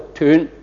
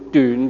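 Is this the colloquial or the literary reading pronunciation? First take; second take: colloquial; literary. First: It uses the colloquial spoken pronunciation. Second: It uses the literary reading pronunciation. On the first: Used in everyday speech. "即口語嘅時候我就斷" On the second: Used when reading or in set phrases. "但讀書用斷嘅"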